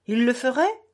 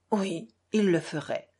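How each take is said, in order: First: FERAIT pushed up in a rising question; rising, testing tune ending high on FERAIT; incredulous question. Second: FERAIT settling on a falling tune; calm confirmation. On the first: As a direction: ask it, lifting sharply on FERAIT. Captain questions, Alyosha answers. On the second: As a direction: confirm it evenly, dropping on FERAIT. Alyosha confirms the captain's question. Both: A narrator's reading.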